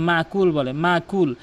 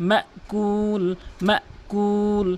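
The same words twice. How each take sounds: First: মাকুল with open long "maa", no catch; common mispronunciation. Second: মাকুল with "ma" cut short, then long "kuul"; correct hamza. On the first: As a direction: say মাকুল quickly and smoothly. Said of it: "এখানে কিন্তু অধিকাংশ লোক". (মাকুল-এ ঝটকা ছাড়া "মা") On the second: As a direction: stop after "ma" in মাকুল, stretch the end. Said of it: "বলতে হবে". (মাকুল-এ "মা" থামিয়ে "কূল" টানা) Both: Shown as a demonstration.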